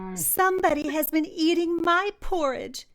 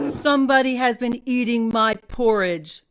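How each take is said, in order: First: It is said in a tiny, squeaky voice. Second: It is said in a deep, growling voice.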